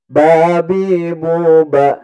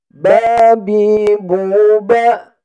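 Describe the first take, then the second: First: The pitch goes down across the phrase. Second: The pitch stays level throughout. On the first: "yang turun kayak gini nih" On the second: "Yang datar kayak gini"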